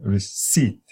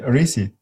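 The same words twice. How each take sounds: First: The stress is on the second syllable. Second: The stress is on the first syllable. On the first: "the eh at the beginning, you have to say re" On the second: "Now you put the stress at the beginning"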